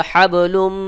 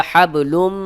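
Both takes have the same delivery.

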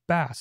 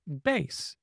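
First: It is pronounced like the bass that is a fish. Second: It is pronounced like the bass in bass guitar. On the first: It names a kind of fish. The speaker calls it right. "instead of a bass" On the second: It names a musical instrument or low sound. The speaker calls it wrong. "It kept wanting to say bass, B-A-S-S, as bass guitar"

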